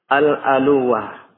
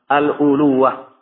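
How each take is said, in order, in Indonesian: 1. Vokal pertama setelah al- adalah a. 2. Vokal pertama setelah al- adalah u. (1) "bifathil hamzah berarti al-aluwah" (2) "dan boleh di dhammah al-uluwah"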